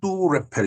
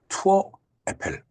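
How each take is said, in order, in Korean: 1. 두 단어는 붙여서 발음해요. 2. 두 단어는 따로 발음해요.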